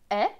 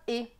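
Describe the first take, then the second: First: The vowel is open, like the è sound. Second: The vowel is closed, like the é sound. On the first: This is how some speakers say it. "selon certains, E S T va se prononcer est" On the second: This is how other speakers say it. "pour d'autres, ce sera et"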